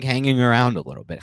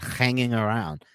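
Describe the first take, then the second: First: Said in the usual way. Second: A slow, light hint of a Russian gangster accent; Teddy KGB impression. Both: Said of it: "as K G B would say".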